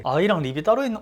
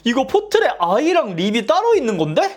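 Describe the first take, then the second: First: Said in the usual way. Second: High, loud rising question; surprised realization. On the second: Real, not acted. To viewers, realizing eye and lip versions differ, surprised.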